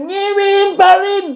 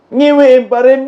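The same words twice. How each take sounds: First: Slow, high, scornful shout; high mocking shout. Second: Said in the usual way. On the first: Real, not acted. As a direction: pitch jumps up into a slow mocking yell.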